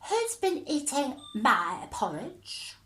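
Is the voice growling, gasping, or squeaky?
squeaky. It is said in a high squeak.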